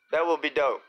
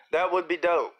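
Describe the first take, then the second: No difference in how they are said.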